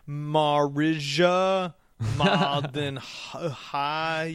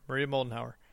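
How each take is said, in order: First: The name is said haltingly and the surname garbled. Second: The name is said smoothly with the full surname. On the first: The speaker calls it wrong. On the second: The speaker calls it right.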